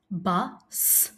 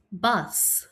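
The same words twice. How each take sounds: First: "Bus" split into "bu", then a separate "sss"; sounded out. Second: Said in the usual way. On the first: Shown as a demonstration. Teacher asking pupils to listen, Bus split as bu, s. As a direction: pause before the final S of "Bus".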